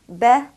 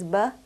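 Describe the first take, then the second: First: The vowel sounds like an open a. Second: The vowel sounds like uh. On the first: The speaker calls it right. "when carrying a fatha, will be pronounced as a" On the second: The speaker calls it wrong. "pronounce um, the fatha with an uh sound"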